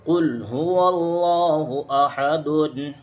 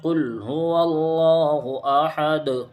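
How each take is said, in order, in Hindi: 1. आख़िरी शब्द -un की आवाज़ पर ख़त्म होता है। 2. आख़िरी शब्द बिना स्वर वाले व्यंजन पर ख़त्म होता है।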